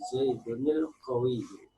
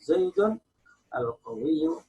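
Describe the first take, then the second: First: The final n runs straight into the next word. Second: The final n stops before the next word. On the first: The words are read connected in continuous speech. "kalau dibaca wasal" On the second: The reading pauses after the word. "Kalau diwakafkan"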